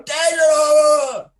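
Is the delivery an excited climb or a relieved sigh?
excited climb. The pitch climbs higher and higher with excitement. It is the obvious, expected way to call it. The speaker calls it wrong. "the cliched, obvious commentary is to go Desert and go up there, higher, higher"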